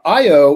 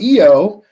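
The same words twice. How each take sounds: First: The name is said the usual American way. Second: The name is said the European way.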